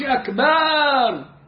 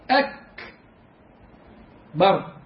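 First: The vowel after b is long. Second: The vowel after b is short. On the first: The speaker calls it wrong. "جبت ألف بعد الباء منين انت؟" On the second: The speaker calls it right. "أكبر كده"

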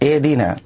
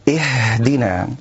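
First: The h is cut short and barely heard. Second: The h is pushed out with heavy force. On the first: "يبتر الهاء" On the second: "يضغط ضغطا شديدا على حرف الهاء"

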